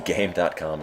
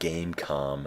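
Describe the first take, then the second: First: The word dot is spoken between game and com. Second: Game and com are joined without dot between. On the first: The speaker calls it wrong. "It said Game dot com" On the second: The speaker calls it right. "I think you're supposed to actually pronounce that Gamecom"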